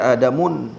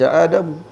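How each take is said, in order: First: The name ends with an added 'un' nasal ending. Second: The name ends plainly without an added nasal ending. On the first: The speaker calls it wrong. "tak dibaca Adamun, tak boleh" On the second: The speaker calls it right. "maka dibaca Adam"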